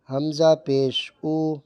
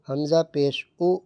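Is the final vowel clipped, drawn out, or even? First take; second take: even; clipped. First: The final vowel is short and smooth. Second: The final vowel is cut off with a jerk. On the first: The speaker calls it right. "ना झटका देंगे और ना खींच के पढ़ेंगे" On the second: The speaker calls it wrong. "ये गलत हो रहा है"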